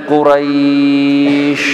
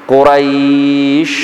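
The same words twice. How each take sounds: Both takes have the same delivery.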